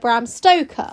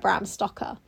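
First: The surname has a long vowel, like Stoke. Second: The surname has a short vowel, like Stocker. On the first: The speaker calls it right. "It was, in fact, written by" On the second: The speaker calls it wrong. "Dracula was not written by"

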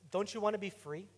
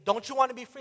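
First: It is said in a gentle, pleading tone. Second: It is said in a harsh, condemning tone.

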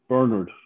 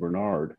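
First: The name is said the speaker's own, non-American way. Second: The name is said the American way.

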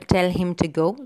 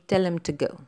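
First: Him and to are said fully, to with a long vowel. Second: Him and to are said reduced and unstressed. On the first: "The strong form, we have the him, to, you know, long vowel" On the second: "But in the weak form, we say"

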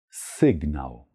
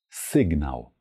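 Both takes have the same delivery.

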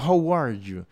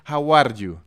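First: It is said with a native English R. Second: It is said with a Spanish-accented R.

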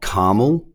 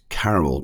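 First: Caramel is said with an American pronunciation. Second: Caramel is said with an Australian pronunciation. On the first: The speaker calls it wrong. "not caramel. For those in America" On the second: The speaker calls it right. "it's caramel"

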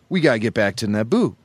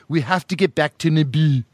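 First: It is said in a casual everyday voice. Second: It is said in a put-on regal accent.

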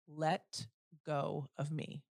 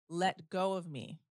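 First: The voice is firm at normal loudness. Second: The voice is firm and clearly louder. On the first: "in the firmest voice possible" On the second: "but I said it louder"

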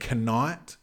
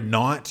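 First: The initial K sound is pronounced. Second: The initial K sound is silent. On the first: The speaker calls it wrong. "you don't say knight" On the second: The speaker calls it right. "sometimes there's silent letters"

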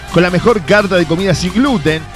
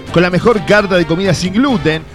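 Both takes have the same delivery.

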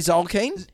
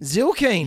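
First: The first vowel sounds like 'o'. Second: The first vowel sounds like 'i'. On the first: The speaker calls it wrong. "I say Zolkine" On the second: The speaker calls it right. "so I think it might be Zilkine"

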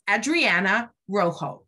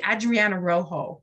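First: The name is said with a Spanish accent. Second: The name is said with an English accent. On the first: "fancy Spanish way" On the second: "You can just say"

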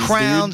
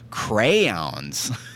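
First: The word is squeezed into one syllable. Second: The word has two syllables with a small hitch. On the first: The speaker calls it wrong. "Crowns is ridiculous" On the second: The speaker calls it right. "if I want to say it the correct way, I have to like stop and go crayons"

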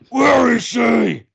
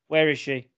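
First: It is said in a gruff Batman voice. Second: It is said in a normal speaking voice.

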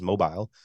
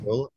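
First: It sounds like the British word for phone. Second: It does not sound like the British phone word. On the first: The speaker calls it wrong. "Apple Maps will pronounce it as Mobile" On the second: The speaker calls it right. "It is Mobile, Alabama"

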